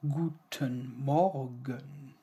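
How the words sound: It is crisply articulated and sounds hard. "when you say it very pronounced, it sounds very hard"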